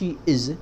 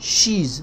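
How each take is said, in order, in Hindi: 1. दोनों शब्द अलग-अलग और पूरे बोले जाते हैं। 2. दोनों शब्द छोटे होकर एक ही अक्षर में बोले जाते हैं। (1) "not she is" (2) "She's not she is"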